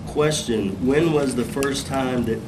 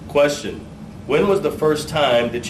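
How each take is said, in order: First: The voice is aimed down and sounds muffled. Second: The voice is aimed outward and sounds projected. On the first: The speaker calls it wrong. "you know what reading back to your notes is? This" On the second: The speaker calls it right. "Your voice is here, okay?"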